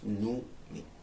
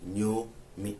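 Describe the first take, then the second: First: The name begins with a 'noo' sound. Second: The name begins with a 'nyo' sound. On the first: This is how the colonial spelling would be read. The speaker calls it wrong. "That isn't Nyomi. That is Numi" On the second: This is how local people say the name. The speaker calls it right. "One would say what? N Y O M I"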